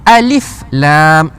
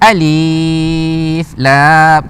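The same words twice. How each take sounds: First: The vowel is kept short. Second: The vowel is drawn out long. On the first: The speaker calls it right. "kita baca alif lam" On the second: The speaker calls it wrong. "kita tak baca alif panjang"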